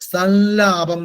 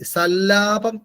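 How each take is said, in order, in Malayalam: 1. ആദ്യ അക്ഷരത്തിന് ശേഷം ഒരു മൂക്കിന്റെ ശബ്ദം വരുന്നു. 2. ആദ്യ അക്ഷരത്തിന് ശേഷം മൂക്കിന്റെ ശബ്ദമില്ല. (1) "ഒന്ന് സം കഴിഞ്ഞിട്ട് ഒരു മൂക്കിന്റെ ശബ്ദവും കൂടെ അവിടെ വരണം" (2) "മലയാളത്തിൽ പറയാം"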